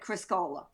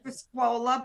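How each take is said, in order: First: The middle syllable is said as 'ko'. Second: The middle syllable is said as 'kwo'. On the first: This is how the family always said the name. "we we always said Criscola" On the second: This is the original Italian form of the name. "the Italian pronunciation"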